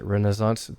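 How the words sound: It is said with an American pronunciation. "Americans pronounce it"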